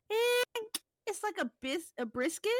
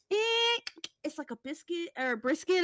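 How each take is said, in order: First: High eh then hesitant brisket; high-pitched hesitant cook impression; redo of the cook. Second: High eh then mumbled unsure answer; unsure cook. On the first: Shown as a demonstration. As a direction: redo the squinting cook's answer. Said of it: "let me redo it". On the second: Retold or imitated. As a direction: play the squinting, hesitant cook. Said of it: "He's like".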